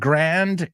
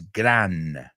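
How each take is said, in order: First: The word ends with a d sound. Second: The word ends without a d sound. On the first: The speaker calls it wrong. "It's not grand" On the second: The speaker calls it right. "it's gran"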